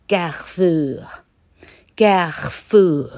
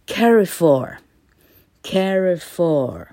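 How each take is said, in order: First: CARREFOUR drawn out in French, throaty r; French pronunciation. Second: CARREFOUR read as English CARRY-FOR, drawn out; English-style reading. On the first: Teacher shows students the French company name, French pronunciation. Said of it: "法文的话念作". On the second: Teacher reads French on an English platform, English-style reading. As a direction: anglicize CARREFOUR slowly, stressed first syllable. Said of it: "勉勉强用英文来读法文". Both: Shown as a demonstration.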